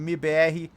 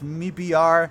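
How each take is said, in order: First: The letters are spelled out with Portuguese letter names. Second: The letters are spelled out with English letter names. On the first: "I'm going to use the Portuguese pronunciation" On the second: "you pronounce M I B R"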